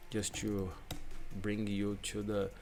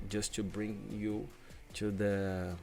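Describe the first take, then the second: No difference in how they are said.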